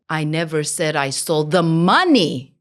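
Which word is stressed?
money. The stress falls on the word money. Something other than money was stolen. "Maybe I stole something else"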